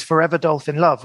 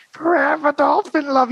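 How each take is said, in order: First: Said in the usual way. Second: Much higher, slow eerie crooning; creepy voice. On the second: Retold or imitated. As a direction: croon it like a haunting chorus. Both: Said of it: "it was this really sort of almost creepy voice".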